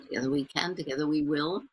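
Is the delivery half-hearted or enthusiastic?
half-hearted. It is said weakly, without enthusiasm.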